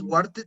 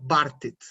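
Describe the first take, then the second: First: The word begins with a rounded w sound. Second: The word begins with a b sound. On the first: The speaker calls it wrong. "como si fuera una U ... Entonces no dirías" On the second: The speaker calls it right. "esta letra, la B, suena como una B ... sino"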